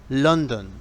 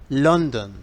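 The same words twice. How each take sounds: No difference in how they are said.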